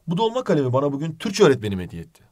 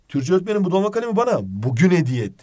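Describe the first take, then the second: First: The stress falls on the word öğretmenim. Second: The stress falls on the word bugün. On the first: The teacher is the one who gave it. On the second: It was given today.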